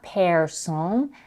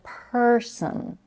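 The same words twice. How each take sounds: First: The second syllable has a full, clear vowel. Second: The second syllable has a reduced schwa vowel. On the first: The speaker calls it wrong. "It's not" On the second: The speaker calls it right. "in the second syllable, we have a schwa"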